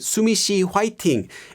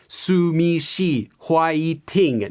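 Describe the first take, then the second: First: The syllables flow together as one piece. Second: Each syllable is said separately, with breaks. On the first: The speaker calls it right. "You just say" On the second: The speaker calls it wrong. "We don't really pronounce things one syllable at a time. ... No one says that"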